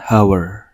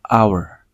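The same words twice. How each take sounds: First: The word starts with an audible h sound. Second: The word starts directly with a vowel sound. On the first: The speaker calls it wrong. "Bukan hour" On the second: The speaker calls it right. "pengucapan hour itu menggunakan A di awal"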